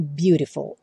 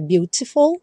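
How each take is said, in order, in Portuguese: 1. A consoante do meio é um flap rápido. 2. A consoante do meio é um t claro. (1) "a maioria dos americanos falam beautiful" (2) "que se escreve com T, seria beautiful"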